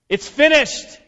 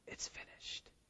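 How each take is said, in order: First: It is shouted loudly and forcefully. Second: It is said quietly and weakly. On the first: The speaker sounds victorious and in control. The speaker calls it right. "This was a victory shout" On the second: The speaker sounds defeated. The speaker calls it wrong. "He didn't weakly say"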